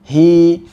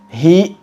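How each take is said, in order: First: The vowel is held briefly and fades smoothly. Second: The vowel ends in an abrupt glottal catch. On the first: The speaker calls it right. "hanya dua harokat saja" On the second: The speaker calls it wrong. "membacanya dengan menambahkan hamzah"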